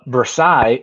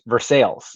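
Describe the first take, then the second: First: The L sounds are silent, French style. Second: The L sounds are clearly pronounced.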